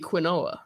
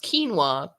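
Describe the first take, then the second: First: It is said letter by letter, kwin-oh-ah. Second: It is said as two syllables, keen-wah. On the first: The speaker calls it wrong. "whenever I see it, I see quinoa" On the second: The speaker calls it right. "I think it's pronounced quinoa"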